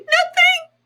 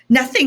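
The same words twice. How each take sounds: First: It is said in a high, squeaky voice. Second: It is said in a normal voice.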